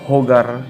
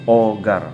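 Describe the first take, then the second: First: The first h sound is pronounced. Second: The first h sound is silent. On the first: The speaker calls it wrong. "instead of hogar" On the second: The speaker calls it right. "you pronounce it as hogar. Okay, no letter H"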